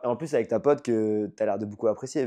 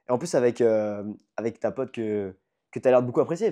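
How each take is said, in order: First: It is said smoothly without fillers or restarts. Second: It is broken up by fillers, pauses and repetitions. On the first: The message comes through clearly. The speaker calls it right. "Je peux la faire comme ça" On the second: The message is cluttered with interference. The speaker calls it wrong. "ou je peux faire"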